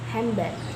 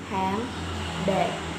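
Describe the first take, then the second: First: The n becomes m before the b. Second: The n and d are pronounced before the b. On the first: This is the assimilated form of rapid speech. "often pronounced handbag in rapid speech" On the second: This is the careful canonical form.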